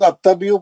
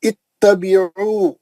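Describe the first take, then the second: First: The word begins with an 'a' vowel. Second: The word begins with an 'i' vowel. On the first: The speaker calls it wrong. "लोग अत्तबियु पढ़ते हैं, गलत है वो, जबर से पढ़ना गलत है" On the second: The speaker calls it right. "जबर है भी तो जेर लगाना"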